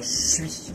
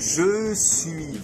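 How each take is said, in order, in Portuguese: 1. As duas palavras são unidas em uma sílaba curta. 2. As duas palavras são ditas completas e separadas. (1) "Vai emendar tudo isso. Vai falar je suis" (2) "o francês dificilmente vai dizer je suis"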